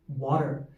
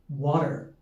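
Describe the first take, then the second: The two takes are said the same way.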